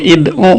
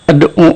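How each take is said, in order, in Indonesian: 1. Kata ini diawali dengan vokal i. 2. Kata ini diawali dengan vokal a. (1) "kalau belum paham bisa jadi bacanya ad'u atau id'u" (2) "Masa langsung ad'u"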